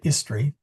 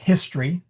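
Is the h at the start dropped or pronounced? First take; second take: dropped; pronounced. First: The starting h sound is dropped. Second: The starting h sound is clearly pronounced. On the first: The speaker calls it wrong. "We don't say history" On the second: The speaker calls it right. "we say history"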